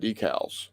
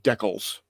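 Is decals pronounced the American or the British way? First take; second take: American; British. First: Decals is pronounced the usual American way. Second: Decals is pronounced the British way.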